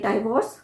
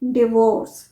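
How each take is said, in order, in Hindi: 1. पहला अक्षर 'dye' जैसा सुनाई देता है। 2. पहला अक्षर 'dih' जैसा सुनाई देता है।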